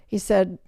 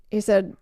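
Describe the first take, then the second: No difference in how they are said.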